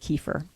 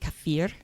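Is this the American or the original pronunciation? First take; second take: American; original. First: The word has its common American pronunciation. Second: The word has its original, non-American pronunciation. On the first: "for for American purposes, we're going to say kefir" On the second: "it's really kefir"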